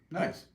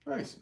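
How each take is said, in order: First: Said in the usual way. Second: "Nice." jumped way up into a tiny high squeak; high squeaky nice. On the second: Real, not acted. Streamer reacting to chat's name, playful high nice. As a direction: toss off "Nice." in a much higher, playful voice. Repeats nice in two ways.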